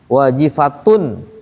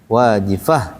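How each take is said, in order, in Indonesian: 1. Kata ini berakhir dengan bunyi t dan vokal sengau. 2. Kata ini berakhir dengan bunyi h saja.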